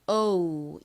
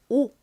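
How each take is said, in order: First: The vowel is said in an English way. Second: The vowel is said in a Korean way. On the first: "실제 발음은 O 이렇게 발음이 되고요" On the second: "한국식으로는 보통 오 이렇게 읽습니다"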